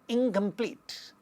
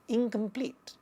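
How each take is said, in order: First: The first syllable ends in an 'ng' sound. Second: The same.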